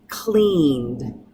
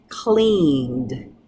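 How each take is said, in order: No difference in how they are said.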